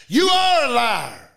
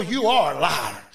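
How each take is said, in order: First: Louder, slow, drawn-out declaration; forceful rebuke. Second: Said in the usual way. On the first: Retold or imitated. Preacher telling the devil off, forceful rebuke. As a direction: hit it hard and stretch it out.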